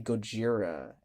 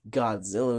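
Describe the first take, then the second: First: The name is said with Japanese pronunciation. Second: The name is said with English pronunciation. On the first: "If we were pronouncing things the Japanese way, ... we would say Gojira" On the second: "we wouldn't say Godzilla"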